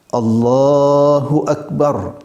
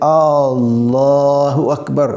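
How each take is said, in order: First: The first vowel of Allahu is short. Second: The first vowel of Allahu is drawn out long. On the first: It states that God is great. The speaker calls it right. "memanjangkan yang panjang, memendekkan yang pendek" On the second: It asks whether God is great. The speaker calls it wrong. "kita panjangkan yang pendek seperti alifnya tadi"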